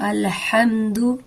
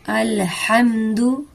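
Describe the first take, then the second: No difference in how they are said.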